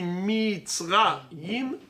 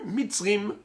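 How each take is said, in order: First: The word ends with a two-vowel '-aim' sound. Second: The word ends with a short '-im' sound. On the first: The traditional reading. The speaker calls it right. "Qui me dit que ça se lit Mitzraim?" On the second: A naive reading without the scribal tradition. The speaker calls it wrong. "j'aurais lu Mitzrim"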